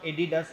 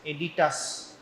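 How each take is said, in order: First: The middle consonant is a d sound. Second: The middle consonant is a t sound. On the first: The speaker calls it wrong. "don't pronounce it as Adidas. It is not Adidas" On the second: The speaker calls it right. "It is Aditas"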